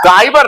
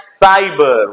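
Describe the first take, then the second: First: The word begins with a k sound. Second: The word begins with an s sound. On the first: The speaker calls it wrong. "काइबर ना बाबा" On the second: The speaker calls it right. "क नहीं स पढ़ेंगे, तो हो जाएगा साइबर"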